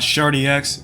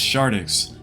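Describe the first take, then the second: First: The name ends with 'dee' then a separate 'ex'. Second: The name ends in 'dix', x sound attached. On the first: The speaker calls it wrong. "not Shardy X" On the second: The speaker calls it right. "it's Shardix. The X is not silent"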